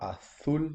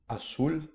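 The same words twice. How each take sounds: First: The z is pronounced like a th. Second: The z is pronounced like an s. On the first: The speaker calls it wrong. "C'est pas" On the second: The speaker calls it right. "avec un S"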